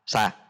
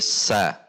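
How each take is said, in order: First: The syllable starts at once with no hiss first. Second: A hissing s is held before the vowel. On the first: The speaker calls it wrong. "tidak langsung keluar sa" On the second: The speaker calls it right. "tapi sa, ada s-nya dulu"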